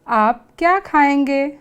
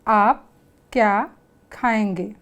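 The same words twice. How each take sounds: First: It is said with a clear questioning tune. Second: It is read flatly, without a question tune.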